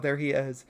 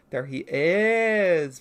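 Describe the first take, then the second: First: Said in the usual way. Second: Very slow and louder, IS stretched long; drawn-out reveal. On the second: Real, not acted. Presenting Murgo to viewers, drawn-out reveal. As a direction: stretch out the word is in a big reveal. Same words repeated for effect.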